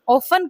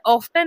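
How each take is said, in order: First: The t sound is silent. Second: The t sound is pronounced. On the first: The speaker calls it right. "ऑफन कहलाता है, इसमें टी silent होता है" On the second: The speaker calls it wrong. "ऑफ्टन नहीं कहलाएगा"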